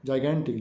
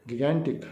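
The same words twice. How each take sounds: First: जाइगेंटिक said with a soft j, jai-gan-tik; soft j corrected. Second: गिगेंटिक said with a hard g, like gig; hard g slip. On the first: Teacher correcting herself to the right j sound. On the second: Teacher's first try at the word, with a hard g. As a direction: start गिगेंटिक with a hard g sound. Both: Shown as a demonstration.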